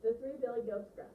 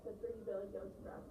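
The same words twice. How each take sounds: First: Expressive, projected storyteller; reading with voice. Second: Voiceless read-aloud. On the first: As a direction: announce the tale to a class with relish. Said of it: "notice the difference with how I read". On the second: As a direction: read it without any expression. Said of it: "I wasn't using any voice". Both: Shown as a demonstration.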